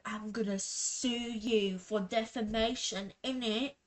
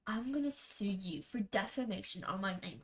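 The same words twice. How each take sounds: First: Mock British accent, quoting him. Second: Said in the usual way. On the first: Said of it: "I did that accent". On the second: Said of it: "He's not British".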